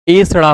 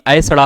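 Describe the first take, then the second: First: एसड़ा opening on a pure long "e"; correct pronunciation. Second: ऐसड़ा opening on an "a-e" diphthong; wrong pronunciation. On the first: Teacher giving students the right एसड़ा, correctly pronounced. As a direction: say एसड़ा starting with "ay", no glide. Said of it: "होता है". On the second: Teacher showing students the faulty ऐसड़ा, mispronounced with ai. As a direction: say ऐसड़ा with a gliding "ai" at the start. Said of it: "ना कि ऐसड़ा होता है". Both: Shown as a demonstration.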